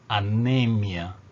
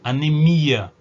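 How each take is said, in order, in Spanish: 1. El acento cae en la sílaba ne. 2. El acento cae en la sílaba mi. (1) "Igualmente anemia... a tônica é a sílaba anterior" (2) "Que este ia é tônico"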